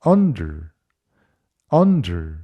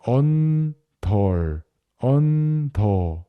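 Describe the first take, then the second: First: Under with a thrown-away schwa ending; short under, der swallowed; reduced under. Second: Under said slowly as Korean 언덜; drawn-out 언덜, full vowels; wrong loanword under; Konglish under. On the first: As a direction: native under, stress on un. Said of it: "들리는 대로 따라하겠습니다". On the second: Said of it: "이런 식으로". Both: Shown as a demonstration.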